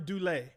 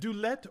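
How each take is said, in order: First: The name ends in an ay vowel, no t. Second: The name ends with a clear t sound. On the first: "or Dulé? Like Goulet" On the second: "Is it Dulett"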